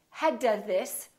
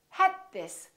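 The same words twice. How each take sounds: First: The D is released before the next word. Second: The D is held without release. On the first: The speaker calls it wrong. "So don't say" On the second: The speaker calls it right. "hold your tongue behind your upper teeth for the D and keep it there"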